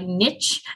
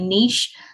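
First: Niche is pronounced the way Americans say it. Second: Niche is pronounced the speaker's own non-US way. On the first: "that's how they pronounce it in the US" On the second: "listening to me say niche"

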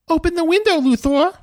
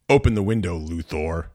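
First: It is said in a Man of Steel voice. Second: It is said in a plain, straight voice.

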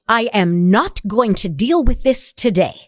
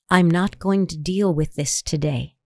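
First: The voice is tense, with words bitten out. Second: The voice is low, with words spoken openly. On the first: The speaker comes across as hostile. The speaker calls it wrong. "That sounds a little aggressive" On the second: The speaker comes across as firm but not hostile. The speaker calls it right. "It sounds just as assertive. But it doesn't sound as off"

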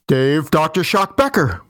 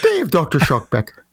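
First: It is said in his normal voice. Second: It is said in a leprechaun voice.

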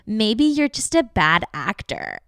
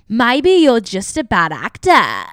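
First: It is read in the speaker's ordinary voice. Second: It is said in a rude Australian accent.

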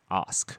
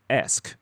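First: It is said with a British broad vowel. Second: It is said with an American vowel.

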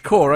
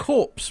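First: The word ends without any s sound. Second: The word ends with an audible s sound. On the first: The speaker calls it right. "So it's Core" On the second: The speaker calls it wrong. "It says it's got Corps"

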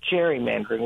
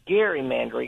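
First: The word begins with a J sound. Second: The word begins with a hard G sound. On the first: It follows the common usage. "instead of gerrymandering" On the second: It follows the name of the man it honors. "if we say gerrymandering"

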